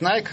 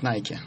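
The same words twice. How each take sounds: First: It is pronounced the way common in Russia. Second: It is pronounced the way common in other countries. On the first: This is how people in Russia usually say it. "в России часто говорят" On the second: This is how people in other countries usually say it. "в других странах чаще говорят"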